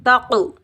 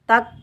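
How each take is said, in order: First: The final k ends with a heavy echoing bounce. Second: The final k stops without an echoing bounce. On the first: The speaker calls it right. "जब हम कलकला करेंगे तो double sound आएगा" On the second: The speaker calls it wrong. "तक नहीं पढ़ेंगे"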